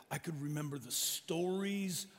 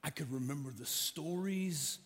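Both takes have the same delivery.

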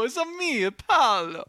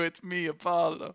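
First: Mock Italian. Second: Put-on half-hearted Italian accent echo; throwaway mock Italian accent; lightly voiced Italian. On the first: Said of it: "[name] doesn't go". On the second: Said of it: "if [name] doesn't do".

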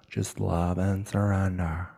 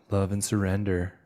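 First: Slow, drawn-out airy guru persona; Becky. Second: Said in the usual way. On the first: Acted. Podcaster slips into a self-love guru, playful Becky voice. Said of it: "It's Becky". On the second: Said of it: "as Becky would say".

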